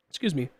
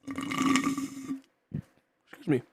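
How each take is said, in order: First: Said in the usual way. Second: Whispered, voiceless "Excuse me"; a soft voiceless "Excuse me" as an aside. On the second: Real, not acted. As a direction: breathe "Excuse me" with no voice after the throat clear.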